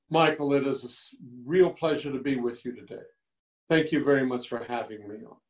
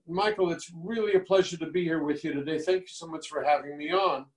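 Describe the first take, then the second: First: It is spoken slowly with a lower pitch. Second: It is spoken fast with a high pitch.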